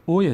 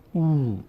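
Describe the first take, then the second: First: اوی with a short "o" vowel; short zamme. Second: او held long as "ooo"; stretched oo. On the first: Teacher naming zamme before it changes, short o in اوی. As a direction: keep the vowel in اوی brief. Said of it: "صدای اوی ضمه". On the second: Teacher showing zamme stretched by vav, long oo on او. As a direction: draw او out into one long vowel. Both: Shown as a demonstration.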